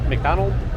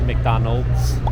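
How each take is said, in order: First: The word ends without an s sound. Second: The word ends with an s sound. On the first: The speaker calls it wrong. "Non è McDonald's" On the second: The speaker calls it right. "ma c'è una S, quindi McDonald's"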